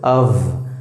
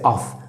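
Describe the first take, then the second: First: The word ends with a voiced v sound. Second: The word ends with a voiceless f sound. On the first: The speaker calls it right. "You call this as of" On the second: The speaker calls it wrong. "most of the guys call this as off, but you don't say it"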